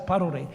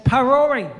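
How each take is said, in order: First: The name is said with a Māori pronunciation. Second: The name is said with an English pronunciation. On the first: This is how the speaker's people say the name. The speaker calls it right. "I says no, it's Parore" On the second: This is how the callers say the name. The speaker calls it wrong. "they're going that that's Parore"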